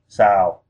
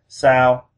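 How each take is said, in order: First: The pitch falls on the word. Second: The pitch stays level on the word. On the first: "falling would be sao" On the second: "the flat tone would be sao"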